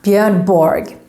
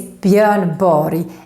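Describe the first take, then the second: First: The final R G ends with a hard G. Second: The final R G sounds like an English Y. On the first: The speaker calls it wrong. "and not Björn Borg" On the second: The speaker calls it right. "His name is Björn Borg"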